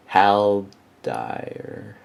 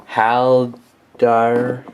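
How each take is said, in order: First: Haldir drawn out as HAL-dire; "Haldir" with a long I in the second syllable; tentative pronunciation. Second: Haldir drawn out as HAL-dar; "Haldir" with an AH in the second syllable; tentative pronunciation. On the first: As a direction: say "Haldir" slowly, ending like "dire". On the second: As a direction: say "Haldir" slowly, ending like "dar". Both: Shown as a demonstration. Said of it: "I don't know how to pronounce it".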